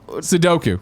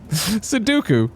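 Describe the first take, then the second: First: The word is said with its usual standard pronunciation. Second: The word ends sounding like Count Dooku's name. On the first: The speaker calls it right. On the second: The speaker calls it wrong.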